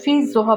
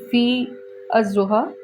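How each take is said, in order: First: No separate vowel is sounded before zuha. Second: A separate vowel is sounded before zuha. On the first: The speaker calls it right. "silence this alif" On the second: The speaker calls it wrong. "you're not going to say fi az-zuha"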